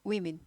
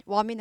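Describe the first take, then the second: First: "women" said WI-min; corrected women. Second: "woman" said WO-min, as the wrong plural; mispronounced women. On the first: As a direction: open "women" on a clear wi, then min. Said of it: "위로 바뀝니다". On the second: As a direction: say "woman" with a wo start and min ending. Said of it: "woman 아니고 women 발음이". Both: Shown as a demonstration.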